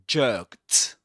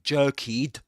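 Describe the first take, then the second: First: The ending is said as a single t sound. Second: The ending is said as an extra syllable. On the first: The speaker calls it right. "So the ending is pronounced as t" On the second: The speaker calls it wrong. "we don't say jerkied"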